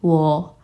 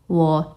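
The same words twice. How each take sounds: Both takes have the same delivery.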